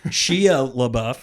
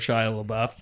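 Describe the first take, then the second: First: The name is pronounced in a garbled way. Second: The name is pronounced in the standard way. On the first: The speaker calls it wrong. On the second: The speaker calls it right.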